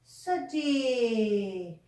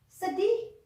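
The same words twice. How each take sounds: First: Sedih. falling, slow and settled; teacher confirming Sedih. with a long fall; answering. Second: Sedih? with a rising question tune; teacher asking Sedih? up high, questioning. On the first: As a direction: answer Sedih. softly, drawn out with a falling tune. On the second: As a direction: ask Sedih? inviting the children to answer. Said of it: "Bagaimana hatinya?". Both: Shown as a demonstration.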